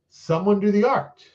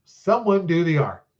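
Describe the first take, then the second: First: Someone do the art with a rising end, like a hint; questioning hint. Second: Someone do the art slow, falling, leaning on "Someone"; slow pointed hint. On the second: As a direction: stress "Someone" knowingly. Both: Shown as a demonstration. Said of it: "when I say someone".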